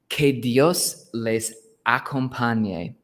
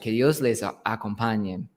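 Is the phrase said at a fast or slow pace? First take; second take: slow; fast. First: The phrase is said at a slower pace. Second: The phrase is said at a faster pace.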